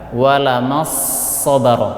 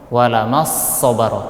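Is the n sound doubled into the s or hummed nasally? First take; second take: doubled; doubled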